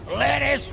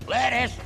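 No difference in how they are said.

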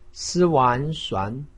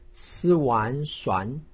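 The two takes are said the same way.

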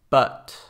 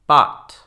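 First: The vowel is the short English 'uh' sound. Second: The vowel is an open Spanish-like 'ah'. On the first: The speaker calls it right. "and then the English" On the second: The speaker calls it wrong. "with the Spanish ah"

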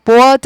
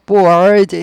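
First: The vowel is plain, without a curled r. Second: The vowel glides into a curled r sound. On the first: The speaker calls it wrong. "board 아니고" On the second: The speaker calls it right. "board 해야 돼요"

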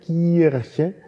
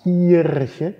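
The two takes are said the same way.

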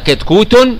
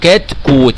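First: The final t is followed by a vowel ending. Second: The final t is voiceless with no vowel after. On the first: The word is said as connected to what follows. "وإذا وصلتها كتكوت نطقت" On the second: The word is said in pause at the end. "وقفت على الكلمة وسكنت التاء الأخيرة"

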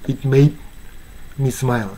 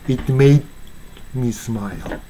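No difference in how they are said.

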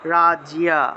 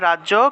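First: There is a y glide after the j. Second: There is no y glide after the j. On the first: This is how it is said in Sanskrit. "কিন্তু সংস্কৃতে উচ্চারণটা হবে রাজিয়া" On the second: This is how it is said in Bengali. "বাংলায় বললে রাজ্য"

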